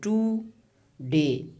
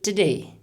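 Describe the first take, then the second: First: The first syllable has a long vowel. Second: The first vowel is dropped between t and d. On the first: The speaker calls it wrong. "kind of uh, long vowel sound, and it is not acceptable" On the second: The speaker calls it right. "we say today, as if ta and da, they are uh, together"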